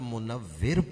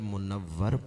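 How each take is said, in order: First: The last syllable has the vowel 'i'. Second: The last syllable has the vowel 'a'. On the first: The body gives light to whatever it looks upon. "और अगर मुनव्विर पढ़ें" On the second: The body has been made full of light. "अगर मुनव्वर पढ़ें"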